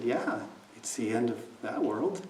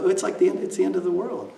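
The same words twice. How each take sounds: First: Said in the usual way. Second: Retold alarm. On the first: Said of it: "He said". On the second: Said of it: "And I said".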